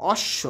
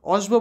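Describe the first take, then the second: First: Said in the usual way. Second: "অশ্ব" with the ব sounded, osh-bo; wrong pronunciation. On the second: Shown as a demonstration. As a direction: say "অশ্ব" with a hard b after the sh. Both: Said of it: "অশ্ব বলিনি".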